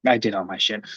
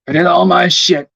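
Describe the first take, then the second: First: Repeated much softer and lower, to himself; muttered. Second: Emphatic. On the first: Streamer repeats it to himself, soft and low. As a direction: mutter it under your breath. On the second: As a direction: declare it proudly. Repeats the line to himself. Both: Real, not acted.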